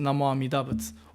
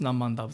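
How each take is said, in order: First: Every syllable of the phrase is said in full. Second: The middle syllables are run together and shortened.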